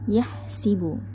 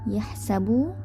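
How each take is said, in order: First: The vowel after the s is 'i'. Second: The vowel after the s is 'a'.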